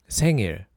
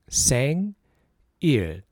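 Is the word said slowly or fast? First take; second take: fast; slowly. First: The word is said fast. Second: The word is said slowly.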